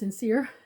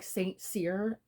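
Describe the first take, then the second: First: The first part is said as 'sin'. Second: The first part is said as 'saint'. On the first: "but it's pronounced sincere" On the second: "the name looks like Saint Cyr"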